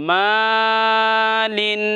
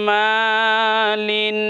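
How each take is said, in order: No difference in how they are said.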